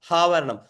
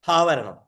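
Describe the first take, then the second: No difference in how they are said.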